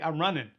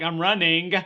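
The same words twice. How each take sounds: First: The ending is said without the g sound. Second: The ending is said with a full g sound. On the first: It sounds casual and natural. "so I'm just like" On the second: It sounds stiff and odd. "I feel like Forrest Gump if I'm like"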